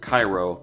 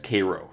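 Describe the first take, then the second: First: Cairo is said the Egyptian way. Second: Cairo is said the Illinois way. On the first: This is how the city in Egypt is called. The speaker calls it wrong. "which is the Egyptian pronunciation" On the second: This is how the town in Illinois is called. The speaker calls it right. "It's Cairo in Illinois"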